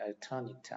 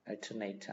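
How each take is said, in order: First: The last syllable sounds like 'nit'. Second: The last syllable sounds like 'nate'. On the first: It is used as an adjective. "knit 이렇게 발음하면 형용사가 되는 거죠. alternate 하면 형용사고" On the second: It is used as a verb. "ate 이렇게 발음하면 동사가 되죠. alternate 하면 이제 동사가 되는 거고"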